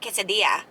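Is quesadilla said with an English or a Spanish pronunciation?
Spanish. The word is said with a Spanish pronunciation. This is the way the speaker will not say it. "I'm not going to be like quesadilla"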